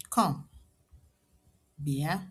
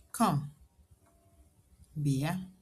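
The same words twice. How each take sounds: The two takes are said the same way.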